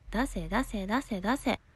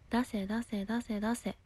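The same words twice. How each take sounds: First: It is said in a strong, forceful tone. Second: It is said in a mild, soft tone. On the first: The speaker calls it right. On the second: The speaker calls it wrong.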